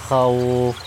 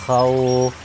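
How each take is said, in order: No difference in how they are said.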